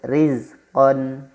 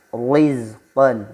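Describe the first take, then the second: First: The r is thin, lips slightly smiling. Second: The r is thick and echoing. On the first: The speaker calls it right. "Yang betul rizqon" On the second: The speaker calls it wrong. "tidak ditebalkan atau menggema, tidak seperti rizqon, itu salah"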